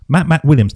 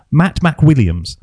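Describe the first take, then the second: First: Said in the usual way. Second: "Matt McWilliams" said slowly, each syllable spelled out; slow careful name. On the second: Shown as a demonstration. Host slowly testing the guest's tricky name, careful pronunciation. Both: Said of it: "It's like a tongue twister".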